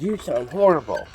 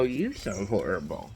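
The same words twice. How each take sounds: First: Higher quoted remark; sister's side of a mock exchange; imitating sister. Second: Quiet retort leaning on YOU. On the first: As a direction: voice the sister's comment, pitched up. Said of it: "she goes". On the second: Retold or imitated. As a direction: throw it back with YOU lifted. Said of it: "And I go".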